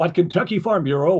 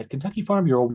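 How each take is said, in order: First: It is said in a big, booming, vibrant way. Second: It is said in a warm, soft, gentle way.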